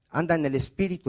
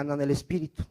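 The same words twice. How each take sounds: First: Said in the usual way. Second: Faster and softer, cueing the congregation; "anda en el espíritu" run together fast and soft; quick prompt to repeat. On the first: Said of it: "diga, anda en el espíritu". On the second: Shown as a demonstration. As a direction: rattle it off softly for them to echo.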